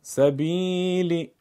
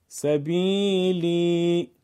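First: سبیلی with a short one-beat i after ب; کسره یک ضربی; one-beat kasra. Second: سبیلی with the i after ب drawn out slowly for two beats; کشش دو ضربی; two-beat long i. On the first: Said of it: "سبیلی با کسره یک ضرب". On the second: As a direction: stretch the ی in سبیلی. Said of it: "سبیلی با کشش دو ضرب". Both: Shown as a demonstration.

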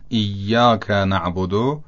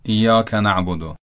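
First: ایاک drawn out slowly with a held double y, "iyyaka"; long, stressed double y in ایاک; doubled Y. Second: ایاک with a short single y, "iyaka"; light single y in ایاک; undoubled Y. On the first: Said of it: "بله، تشدید نداره". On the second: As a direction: skip the doubling in ایاک. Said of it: "تشدید نداره". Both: Shown as a demonstration.

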